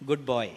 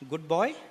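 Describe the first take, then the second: First: It is said as a statement, falling. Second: It is said as a question, rising.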